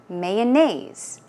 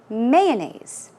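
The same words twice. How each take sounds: First: The stress is not on the first syllable. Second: The stress is on the first syllable. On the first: "the stress goes on different parts of the word" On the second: "first syllable"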